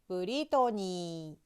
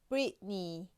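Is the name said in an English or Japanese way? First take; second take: Japanese; English. First: It is said the Japanese way. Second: It is said the English way.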